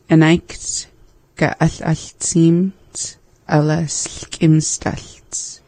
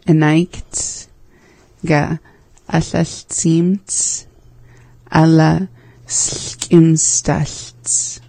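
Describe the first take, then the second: First: It is said at normal speed. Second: It is said slowly.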